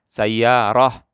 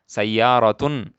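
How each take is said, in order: First: The word ends with a soft h sound. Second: The word ends with a t and -un. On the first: The word stands alone at a stop. "kalau mati dibacanya dengan seperti ha" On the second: The word is joined to what follows. "Kalau disambung, kita sebut, kita baca taknya"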